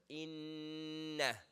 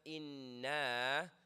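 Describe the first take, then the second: First: The sound after the noon is kept short. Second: The sound after the noon is stretched. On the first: The speaker calls it right. "no stretch" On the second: The speaker calls it wrong. "So it's not inna. If you do that, you change the meaning"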